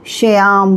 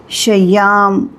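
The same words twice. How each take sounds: First: श्याम said naturally, at normal speed; spoken pronunciation. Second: श्याम drawn out slowly, letter by letter; spelling pronunciation. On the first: Teacher gives the spoken form of श्याम. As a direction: say श्याम the everyday way. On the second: Teacher slowly spells out श्याम. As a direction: sound out श्याम slowly as written. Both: Shown as a demonstration. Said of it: "को श्याम बोलेंगे".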